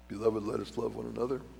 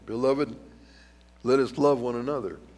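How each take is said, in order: First: It is read at a normal, quicker pace. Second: It is read more slowly and deliberately.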